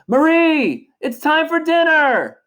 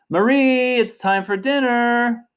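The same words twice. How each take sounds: First: It is shouted loudly. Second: It is called out, somewhat raised.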